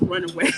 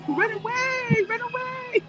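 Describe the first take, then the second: First: Said in the usual way. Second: Sung out much higher, teasing; mock high run away, half laughing; playful high repeat. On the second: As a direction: chirp it up high like a joke. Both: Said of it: "I think you said in French".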